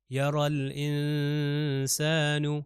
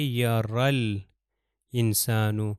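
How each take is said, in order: First: یا رل انسانو slowly chanted, lam of رل clearly sounded; Quran recitation. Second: Said in the usual way. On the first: Shown as a demonstration. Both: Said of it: "لام جو ہے میں تلفظ کر رہا ہوں".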